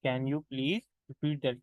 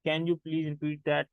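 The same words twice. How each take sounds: First: Slow, even repeat of the drill; second slow take for students. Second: Slow, careful teacher demo; spoken English drill, slow and clear; slow model phrase. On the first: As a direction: repeat it slowly and clearly. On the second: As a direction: say it slowly for learners to copy. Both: Shown as a demonstration. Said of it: "तो आप उसे कहते हो".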